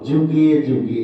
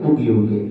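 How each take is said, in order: First: The word begins with a 'j' sound. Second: The word begins with a 'y' sound. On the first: This is the familiar Bengali pronunciation. "আগে বলতো যুগে যুগে" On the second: This is the Sanskrit pronunciation of the letter. "এখন ভাই উগে উগে"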